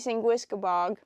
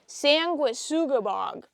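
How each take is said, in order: First: The name is said with four syllables. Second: The name is said with five syllables. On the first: The speaker calls it wrong. "That's wrong. So wrong" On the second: The speaker calls it right. "how he actually said it"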